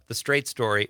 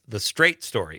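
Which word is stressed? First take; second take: Story; Straight. First: The stress falls on the word Story. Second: The stress falls on the word Straight. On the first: The story is honest and direct. The speaker calls it wrong. "before I knew it was about a person named Straight, I used to call it The Straight Story" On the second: The story is about a person named Straight. The speaker calls it right. "Once I knew it was about Richard Farnsworth character, Alvin Straight, it's The Straight Story"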